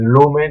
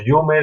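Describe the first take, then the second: First: It begins with a plain L sound. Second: It begins with a palatal Y-like sound.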